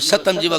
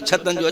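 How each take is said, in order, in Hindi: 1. पहला शब्द "s" की आवाज़ से शुरू होता है। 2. पहला शब्द "ch" की आवाज़ से शुरू होता है। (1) "जो स्थिर से बोलने वाले थे सतम जीव" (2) "सौ को छ कहने की परंपरा"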